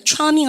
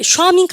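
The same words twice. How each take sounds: First: "charming" begun with a CH sound; "charming" opening on a crisp CH; correct CH pronunciation. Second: "charming" begun with SH, like "shwaming"; "charming" higher, with a mistaken SH start; wrong SH pronunciation. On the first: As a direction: say "charming" with CH, not SH. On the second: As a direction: misread "charming" with SH in place of CH. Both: Shown as a demonstration. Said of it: "세시 발음 아시죠".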